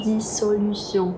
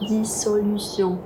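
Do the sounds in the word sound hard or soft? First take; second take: soft; soft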